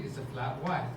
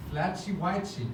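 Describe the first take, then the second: First: "flat white" with plain t endings, no chi sound; correct pronunciation. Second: "flatchy whitey" with chy endings, Brazilian style; Brazilian mispronunciation. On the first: Host showing how the coffee name should sound. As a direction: say "flat white" crisply, no added vowel. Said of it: "when you're not meant to go flatchy". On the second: Host showing the wrong Brazilian way to say it. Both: Shown as a demonstration.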